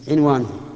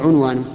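First: The first vowel is i. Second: The first vowel is u. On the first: "كسر العين" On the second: "بضمها"

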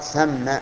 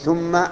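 First: The first vowel is an open "a" sound. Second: The first vowel is a rounded "u" sound. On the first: It is an adverb meaning there, a far place. The speaker calls it right. "وظرف مكان أن يقال ثم" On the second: It becomes a conjunction meaning then. The speaker calls it wrong. "أن يضم الثاء من ثم فيقول ومن ثم حصل كذا وكذا، وهذا خطأ"

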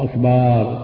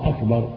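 First: The vowel after the b is drawn out long. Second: The vowel after the b is kept short. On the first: The speaker calls it wrong. "لا تود الهمزة ولا الباء" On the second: The speaker calls it right. "بعدم مد الهمزة ولا مد الباء"

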